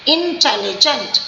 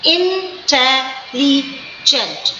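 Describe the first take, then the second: First: Said in the usual way. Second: "intelligent" chanted slowly syllable by syllable; chanted teaching demo of "intelligent"; sing-song syllables. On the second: Shown as a demonstration. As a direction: lilt through the four syllables of "intelligent" slowly. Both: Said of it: "four times it is going down".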